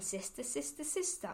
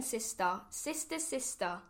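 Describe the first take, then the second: First: Cave echo. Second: Said in the usual way. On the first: A narrator's reading. The cave answering the duck's call, as a soft echo. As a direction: let it come back faint, like an echo. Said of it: "a voice from the cave came back". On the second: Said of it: "She quacked".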